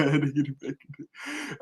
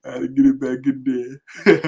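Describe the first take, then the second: First: Amused laughing repeat. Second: Said in the usual way. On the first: Real, not acted. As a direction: say it again while laughing. Second take said laughing.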